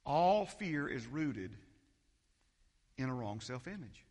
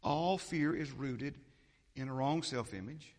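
First: "All fear is rooted" drawn out slowly with weight on "All"; slow, weighty recitation of "All fear is rooted in a wrong self-image"; slow emphatic. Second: "All fear is rooted" slow again, "wrong" lifted at the end; slow recitation with "wrong" rising; slow emphatic. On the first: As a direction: lay out each word slowly, "All" first. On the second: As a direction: repeat it slowly, rising on "wrong". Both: Shown as a demonstration. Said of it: "Anybody remember this one".

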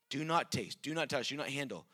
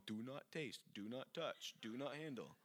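First: Said in the usual way. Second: Soft, sneering sarcastic mockery; mock the rules sarcastically. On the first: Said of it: "He's mocking the world". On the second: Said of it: "this is very sarcastic".

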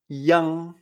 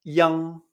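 First: "yang" open A, nasal ng ending; yang repeated. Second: "yang" with an open A and final ng; Chinese yang. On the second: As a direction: say "yang" with a clear A. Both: Shown as a demonstration. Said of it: "Se pronuncia".

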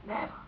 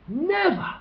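First: A soft, hushed never; quiet stunned denial. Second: Much higher, ringing never; outraged never. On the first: Listeners recoiling at the gas chamber, hushed. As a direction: breathe it in disbelief. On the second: Listeners rejecting the execution, high and outraged. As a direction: cry it out in protest. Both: Retold or imitated. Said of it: "We would immediately think".

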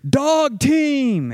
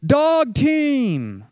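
First: Sharp high shout of alarm. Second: High, loud cry of discovery; alarmed shout. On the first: Phil warning the group of a dog team, shouting. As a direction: yell the warning over the wind. Sudden alarmed call in storm. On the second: Spotting a second abandoned team in the storm, shouting. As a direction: call it out over the wind. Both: Retold or imitated.

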